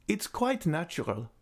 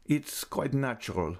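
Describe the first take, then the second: First: Put-on old lady's voice. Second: Submissive echo. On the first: Echoed Raoul. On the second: Raoul meekly echoes the old lady's words. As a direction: give way and echo her tamely. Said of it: "echoed Raoul submissively". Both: A narrator's reading.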